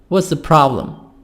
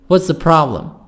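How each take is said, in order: The two takes are said the same way.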